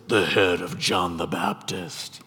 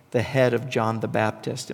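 First: Low, slow, nasty villainess voice; ugly, evil woman. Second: Said in the usual way. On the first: Acted. Preacher imagines Herodias demanding John's head, evil woman voice. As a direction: drag it out low like a wicked woman. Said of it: "In my mind, I always hear this".

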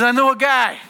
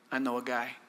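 First: Higher, louder announcement; raised voice. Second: Low, quiet Italian wise-guy voice; Italian accent. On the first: Cupbearer speaking up to Pharaoh in a raised voice. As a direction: pipe up loud and high. Cupbearer's line redone after Italian take. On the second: Cupbearer tipping off Pharaoh in a low Italian voice. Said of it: "I said it in an Italian voice". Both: Acted.

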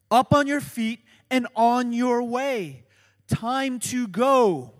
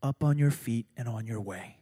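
First: Up on your feet pushed out loud, Time to go slowed; urgent and loud. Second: Said in the usual way. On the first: Shown as a demonstration. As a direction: preach it with urgency. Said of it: "contain that urgency". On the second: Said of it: "captures this".

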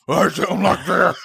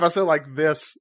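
First: Slow, higher and louder Batman growl; strained superhero voice, played for laughs. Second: Said in the usual way. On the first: Shown as a demonstration. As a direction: put on a drawn-out Batman voice. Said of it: "You're like Batman". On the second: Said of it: "like how I sound now to you".

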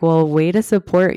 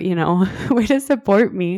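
First: Dry sarcastic thanks; mock gratitude, deadpan; plain sarcastic jab. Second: Sarcastic line broken by a laugh; repeating the jab with a laugh; laughing sarcasm. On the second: Retold or imitated. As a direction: laugh through the mock thanks. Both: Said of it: "Which I was like".

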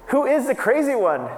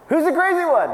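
First: Higher and louder preacher challenge; raised rhetorical question. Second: Much higher and louder, building to a cry; near shout. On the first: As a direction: ask it up high to the crowd. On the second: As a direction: push the repeat over the top. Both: Real, not acted.

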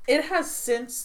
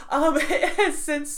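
First: Said in the usual way. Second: Laughing. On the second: Real, not acted. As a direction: restart with a laugh, slower and higher.

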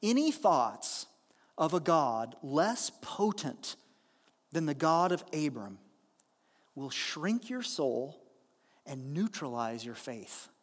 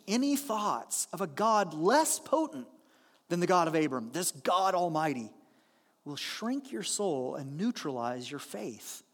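First: Measured scripture-style reading; slow weighty quote read aloud; slow solemn reading. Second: Reread with emphasis. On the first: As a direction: read it slowly and gravely, letting it land. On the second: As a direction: read it again so it sinks in. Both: Shown as a demonstration. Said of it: "Let me read that again".

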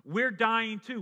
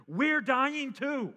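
First: Loud, high, quick "We're dying too"; dying criminal scolding his mocking neighbour, raised voice; rebuking criminal. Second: "We're dying too" drawn out very slowly, louder and higher; slow emphatic repeat. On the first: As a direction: snap it back at him. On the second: Acted. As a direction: hammer each word home. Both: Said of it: "the other says".

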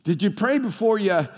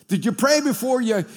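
First: Said in the usual way. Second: The word pray punched up high; stress on pray. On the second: Shown as a demonstration. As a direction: lean hard on pray, rising up.

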